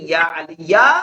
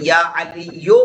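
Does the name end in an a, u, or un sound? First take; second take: a; u. First: The name ends in a short a sound. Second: The name ends in a short u sound. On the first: The speaker calls it wrong. "नहीं बोलते" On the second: The speaker calls it right. "बोलते हैं"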